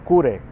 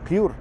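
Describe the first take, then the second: First: The title is said with Japanese pronunciation. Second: The title is said with English pronunciation. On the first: "depende si lo pronunciamos en japonés" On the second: "o en inglés"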